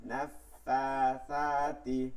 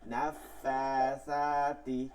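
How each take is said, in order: No difference in how they are said.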